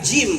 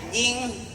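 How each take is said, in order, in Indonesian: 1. Kata ini berakhir dengan bunyi m, bibir tertutup. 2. Kata ini berakhir dengan bunyi ng. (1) "Tajwid tuh Jim, rapetin Jim" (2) "Sewot gurunya rapetin nih"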